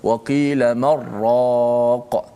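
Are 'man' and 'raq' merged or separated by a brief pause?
merged. The n merges into r with no pause. The speaker calls it wrong. "Tak boleh kita baca waqila marraq, tidak"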